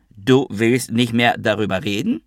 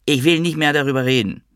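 First: Challenging question with a high rise on "reden"; incredulous echo question. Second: High-pitched protest, falling at the end; upset refusal to discuss it; refusing. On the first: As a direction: repeat it back in disbelief, lifting "reden". Quarrel, echoes it as question. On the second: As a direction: stress on "will", pitched high then falling. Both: A narrator's reading.

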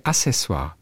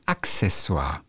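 First: Accessoire as Assessoire; wrong version without K. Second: Accessoire as Ak-sessoire, slowly; correct K-S version. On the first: Podcaster admits own mistake, saying Assessoire without K. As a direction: drop the K sound from Accessoire. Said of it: "Ist falsch". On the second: Podcaster corrects the word, slow clear Ak-sessoire. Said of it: "Es heißt Accessoire". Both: Shown as a demonstration.

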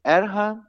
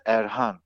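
First: Erhan with stress on the first syllable, ER-han; wrong stress. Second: Erhan with stress on the last syllable, er-HAN; right stress. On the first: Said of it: "es heißt nicht Erhan". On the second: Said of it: "es heißt Erhan". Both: Shown as a demonstration.

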